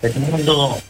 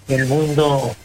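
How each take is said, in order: Both takes have the same delivery.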